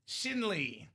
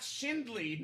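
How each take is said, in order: First: The name is said without a D sound. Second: The name is said with a D sound. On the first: The speaker calls it right. "I got the Shinley down" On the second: The speaker calls it wrong. "Not Shindley, no D"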